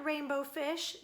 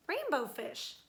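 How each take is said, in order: First: Name called with a rising lilt; calling out. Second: Said in the usual way. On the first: Acted. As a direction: call his name to invite him. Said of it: "they would call".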